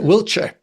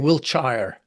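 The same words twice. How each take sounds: First: The name is said in a British accent. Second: The name is said in an American accent.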